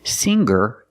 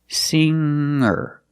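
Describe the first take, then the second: First: The middle has a hard G sound. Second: The middle has a nasal ng sound. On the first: The speaker calls it wrong. "The G is not pronounced with a hard G sound. Singer is not correct" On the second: The speaker calls it right. "Make a nasal sound with the N G"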